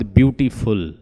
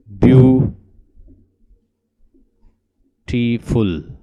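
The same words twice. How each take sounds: First: Said in the usual way. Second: "ब्यूटीफुल" very slowly, a long ब्यू, then टी, फुल; syllable by syllable. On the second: Shown as a demonstration. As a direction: pull "ब्यूटीफुल" apart with a long pause after ब्यू. Teacher splits word into syllables.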